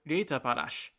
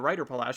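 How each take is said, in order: First: The name is read in a German-like way. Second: The name is read like English words. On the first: "it sounds German to me" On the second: "because I see English uh, spelling and that's how I parse that particular phrasing"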